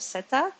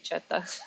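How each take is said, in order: First: The word begins with an s sound. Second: The word begins with a ch sound. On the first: This is the French way. "I think it's pronounced in French as set or seta" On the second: This is the Italian way. "In Italian, it would be chetta"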